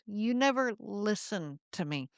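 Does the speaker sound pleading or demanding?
pleading. It sounds pleading, stressing listened.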